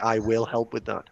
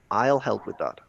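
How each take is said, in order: First: Will is said in full as a separate word. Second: I and will are joined into one syllable. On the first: The speaker calls it wrong. "it's a stress on the word that we don't need" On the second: The speaker calls it right. "We normally would put it together. This is called a contraction"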